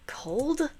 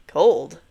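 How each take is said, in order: First: Whispered, rising cold?; whispered question. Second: Said in the usual way. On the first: Acted. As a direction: breathe cold? as an unsure whisper. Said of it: "It felt".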